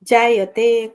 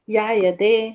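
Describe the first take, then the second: First: The word begins with a j sound. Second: The word begins with a y sound. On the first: This is the original Sanskrit form. "ज को य के रूप में ही उपयोग में लेते हैं" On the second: This is the Magadhi form. "ज को य के रूप में ही उपयोग में लेते हैं"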